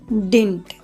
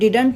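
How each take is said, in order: First: The middle d sound is dropped entirely. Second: The middle d sound is clearly pronounced. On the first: The speaker calls it right. "ये बीच का डी जो है silent हो जाएगा" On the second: The speaker calls it wrong. "इसे हम डिडंट नहीं पढ़ेंगे"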